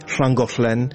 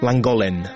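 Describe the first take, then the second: First: The word starts with a hissing L sound. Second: The word starts with a plain L sound. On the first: The speaker is a local Welshman. The speaker calls it right. "вместо того, чтобы говорить «шлангошлен»" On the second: The speaker is English, not local. The speaker calls it wrong. "А англичане совсем не могут. Они все говорят «ланголен»"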